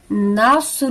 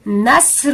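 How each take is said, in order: First: نصر with a full, heavy ص; heavy s in nasr. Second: نصر with a thin, light س; light s in nasr. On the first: Teacher shows the heavy ص in نصر. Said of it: "اگر ہم اس کو سواد کے ساتھ پڑھیں". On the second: Teacher shows the light س in نصر. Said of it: "اس کو سین کے ساتھ ادا کریں گے". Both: Shown as a demonstration.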